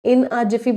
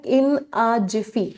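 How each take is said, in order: First: Said in the usual way. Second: Very slow and deliberate, each word spaced out; slow, clear idiom. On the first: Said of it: "बहुत बार exam में आया". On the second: Shown as a demonstration. Teacher presenting a new idiom to students, slow and deliberate. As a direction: spell it out slowly for the class to write. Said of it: "एक बड़ा प्यारा idiom होता है".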